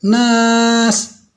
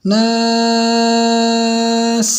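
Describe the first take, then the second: First: The final s is cut off very short. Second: The final s is held fairly long. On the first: The speaker calls it wrong. "Nggak boleh juga terlalu pendek" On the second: The speaker calls it right. "seukuran rikhwah, panjangnya rikhwah"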